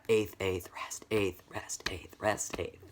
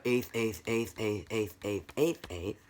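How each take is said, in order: First: "eighth, eighth", then alternate soft "rest" with "eighth"; syncopated rhythm with rests. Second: Every "eighth" equally spaced, no rests; straight eighth notes. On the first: Teacher spelling out the syncopated rhythm, pulsed chant with soft rests. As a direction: chant "eighth", dropping "rest" softer in between. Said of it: "You've got". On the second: Teacher recalling the plain rhythm, even chant. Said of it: "So now, instead of". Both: Shown as a demonstration.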